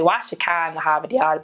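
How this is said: It is said with a Boston accent.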